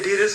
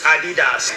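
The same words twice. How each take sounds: First: It is said the American way. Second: It is said the European way.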